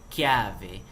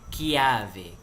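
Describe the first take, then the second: No difference in how they are said.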